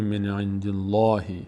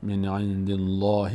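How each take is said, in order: Both takes have the same delivery.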